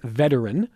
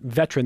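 First: The word is said with an extra syllable. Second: The word is said without the extra syllable. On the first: "They want veteran" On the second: "not veteran"

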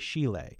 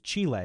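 First: It begins with a softer 'sh' sound. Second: It begins with a 'ch' sound, as in chess. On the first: The speaker is of lower social status. "someone with less status might say" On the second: The speaker is of high social class. "A high-class Chilean would probably pronounce"

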